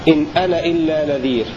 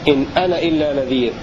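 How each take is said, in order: No difference in how they are said.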